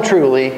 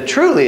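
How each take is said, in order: First: Said in the usual way. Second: "truly" shot up high in a sudden yell. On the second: Shown as a demonstration. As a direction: bark "truly" high and sharp to grab attention. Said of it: "is me yelling at you".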